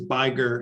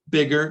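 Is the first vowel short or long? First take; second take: long; short. First: The first vowel is long. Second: The first vowel is short. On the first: The speaker calls it wrong. "if you only have one G, then it says biger" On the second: The speaker calls it right. "you need to double the consonant to keep the vowel short"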